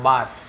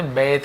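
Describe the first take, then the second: First: बाथ with a long "aa" vowel; teacher's pronunciation. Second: बेथ with an "ay" vowel; common variant pronunciation. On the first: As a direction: say बाथ with an open A. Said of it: "बाथ यानी होता है". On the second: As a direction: say बेथ, as many people do. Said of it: "बहुत से लोग बोलते हैं". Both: Shown as a demonstration.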